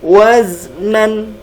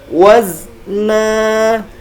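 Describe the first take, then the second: First: The word ends with an n sound. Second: The word ends in a long vowel. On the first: The speaker calls it wrong. "bukan dibaca dengan waznan" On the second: The speaker calls it right. "dibaca dengan panjang"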